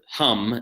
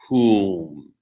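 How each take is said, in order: First: The vowel is a short 'uh' sound. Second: The vowel is a long 'oo' sound. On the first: This is the English word. "the word hum in English" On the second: This is the mantra. "the vowel in the mantra is oo"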